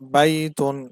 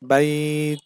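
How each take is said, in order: First: It is read through with the full ending. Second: It stops on 't', with the vowel slightly lengthened.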